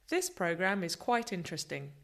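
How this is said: All words are stressed evenly.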